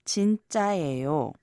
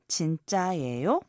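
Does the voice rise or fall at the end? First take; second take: falls; rises. First: The voice falls at the end. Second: The voice rises at the end.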